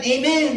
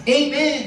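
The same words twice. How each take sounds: First: Louder amen; shouted amen. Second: Louder amen. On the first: Pastor telling the church to shout amen. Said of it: "Isigaw mo yan". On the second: Pastor leading the church to shout amen. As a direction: call out amen. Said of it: "magsabi ng". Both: Shown as a demonstration.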